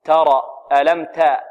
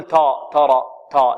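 First: ترى with a light, open "ta"; medium fatha. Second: ترى with a thick, dark "taw" sound at the start; wrongly heavy ta. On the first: Teacher returns to the correct reading, open "a" in تا. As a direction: keep تا a plain "a", not e and not dark. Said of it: "الصحيح تا". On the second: Teacher shows the forbidden tafkhim, dark heavy تا. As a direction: thicken تا into a dark back vowel. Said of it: "نفخم، لا". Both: Shown as a demonstration.

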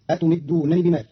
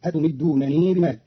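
First: Said in the usual way. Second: أتمدونني ending in a long "nee"; أتمدونني said "atumiddunanee"; lengthened final noon. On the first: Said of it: "قرأ قالون كلمة أتمدونني". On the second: Shown as a demonstration. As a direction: stretch the last syllable of أتمدونني. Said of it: "بصلة النون المكسورة".

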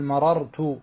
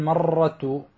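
First: مررت as ma-rar-tu, second r closed and separate; correctly unmerged. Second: مررت mispronounced as marr-tu, r's fused into one long trill; fuse the r's of مررت as the mistaken form; wrongly merged. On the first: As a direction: split مررت slowly into ma-RAR-tu. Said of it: "وجب فك الإدغام". (مررت بفك الإدغام، راءان منفصلتان) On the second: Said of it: "لا تقول مررت". (مررت بإدغام الراءين خطأً) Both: Shown as a demonstration.

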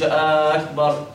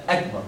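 First: "آه أكبر" as aakbar, first a long; added alif. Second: Short "أكبر", straight from a to k; correct short hamza. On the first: Teacher showing what to avoid, long first vowel. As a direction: stretch the start of "أكبر" into aa. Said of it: "ما تقولش". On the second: Teacher correcting the error, brief opening vowel. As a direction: clip the first a of "أكبر". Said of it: "تنتقل مباشرة من الهمزة إلى الإيه؟". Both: Shown as a demonstration.

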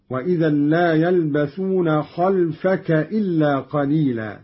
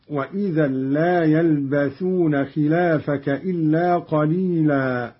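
First: "خلفك" as khalfaka, open kha, vowelless lam; short khalfaka. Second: Said in the usual way. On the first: Shown as a demonstration. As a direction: say "خلفك" without any long vowel: khal-fa-ka. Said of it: "وإسكان اللام دون مد هكذا". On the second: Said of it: "قرأ قالون بفتح الخاء".

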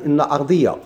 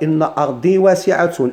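First: أرضية with a clear "ya" at the end; fatha on final ya. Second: أرضي recited slowly, closing on a silent final ya; careful slow recitation with sukun on the ya; slow recited Quran phrase. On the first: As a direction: turn أرضي into أرضية. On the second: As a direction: recite أرضي واسعة slowly, letting أرضي end on a long i. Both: Shown as a demonstration.

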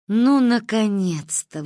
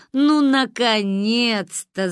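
First: Slow relieved sigh; finally, at last. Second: Laughing. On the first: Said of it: "вздохнули духи наших предков". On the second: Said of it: "засмеялась Сирануиш". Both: A narrator's reading.

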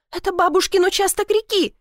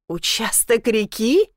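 First: High-pitched insistence with falling end; indignant cry. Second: "Участок реки?" slow, rising on "реки"; incredulous echo question. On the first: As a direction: insist hotly, pitched well up. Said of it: "крикнула она". (возмущённо настаивая) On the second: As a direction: echo "Участок реки?" slowly, lifting the end in doubt. Incredulous echo of her claim. (недоверчивый переспрос: "Участок реки?" с повышением) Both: A narrator's reading.

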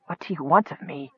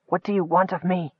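First: Softer, weak gasped question; a wounded knight gasping weakly. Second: Softer, hoarse repeated question; a wounded knight asking hoarsely. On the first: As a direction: force it out through the pain. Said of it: "the wounded man managed to gasp". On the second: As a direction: rasp it out through the pain. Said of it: "he repeated hoarsely". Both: Acted.

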